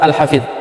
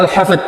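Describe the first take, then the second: First: The word ends with an emphatic dh sound. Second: The word ends with a plain d sound. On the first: The speaker calls it wrong. "bukan surah Al-Hafid seperti yang dikatakan" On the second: The speaker calls it right. "tetapi dengan dal, yaitu surah Al-Hafid, ha fa dal"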